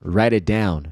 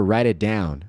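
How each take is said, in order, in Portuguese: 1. O t vira um toque rápido, como um r. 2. O t vira um toque rápido, como um r.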